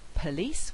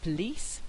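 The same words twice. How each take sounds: First: The first weak vowel is pronounced. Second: The first weak vowel is left out. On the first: "Instead of saying" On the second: "a weak vowel plus one of these consonants becoming syllabic"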